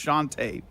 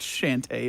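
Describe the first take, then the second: First: The name does not sound like shanty. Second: The name sounds like the word shanty. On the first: The speaker calls it right. "it's Shantae" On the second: The speaker calls it wrong. "Why'd you say it like sea shanty? It's not Shantae"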